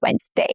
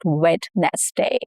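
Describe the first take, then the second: First: The d sound in the middle is dropped. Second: The d sound in the middle is pronounced. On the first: The speaker calls it right. "The D is dropped here" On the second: The speaker calls it wrong. "It's not Wednesday"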